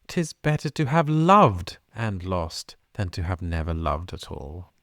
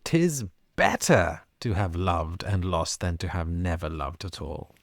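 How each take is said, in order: First: The first loved is stressed. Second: The word better is stressed.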